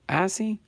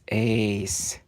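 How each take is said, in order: First: The name does not sound like 'ace'. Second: The name sounds exactly like 'ace'.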